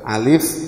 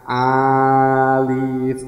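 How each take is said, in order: First: The vowel is kept short. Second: The vowel is drawn out long. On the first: The speaker calls it right. "Nah, berarti pendek" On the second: The speaker calls it wrong. "Jangan alif kak. Enggak, enggak, enggak seperti itu"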